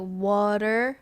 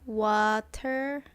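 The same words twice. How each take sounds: First: It is said in a non-Australian accent. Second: It is said in an Australian accent. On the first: The speaker calls it wrong. "It's not like water" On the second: The speaker calls it right. "in a Australian way"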